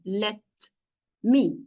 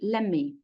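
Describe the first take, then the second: First: The two words are said separately with t. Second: The words run together and the t drops. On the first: "pronouncing these words separately" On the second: "in normal connected speech"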